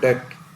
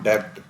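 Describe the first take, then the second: First: The word is said with no b sound. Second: The word is said with a b sound. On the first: The speaker calls it right. "This is called डेट, बी इसमें silent है" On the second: The speaker calls it wrong. "Not डेब्ट"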